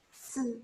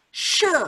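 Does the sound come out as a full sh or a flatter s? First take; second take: flatter s; full sh. First: Timid lips give a flatter s-like sound. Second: Lips pushed forward give a full sh sound. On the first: The speaker calls it wrong. "Kalau kalian malu-malu se, se, enggak jadi sh" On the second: The speaker calls it right. "ya harus nyongor-nyongor sh, supaya suaranya keluar sh"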